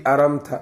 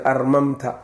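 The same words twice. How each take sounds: First: "aramta", the shortened form with one m; lightened form. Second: "armamta", the unshortened form, m said twice; original full form. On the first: Teacher showing students the lightened word, "aramta" with single m. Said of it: "la fududeeyey". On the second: Teacher showing students the original word, "armamta" with two m's. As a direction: say "armamta" with both m's sounded. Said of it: "asluhu armamta ayay ahayd asalkeeda". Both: Shown as a demonstration.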